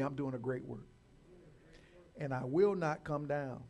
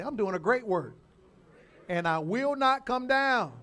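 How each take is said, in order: First: Said in the usual way. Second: Loud, emphatic declaration, rising in force and slowing; like you mean it. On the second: Shown as a demonstration. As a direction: proclaim it with full conviction for the congregation to repeat. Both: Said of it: "you gotta say it like you mean it".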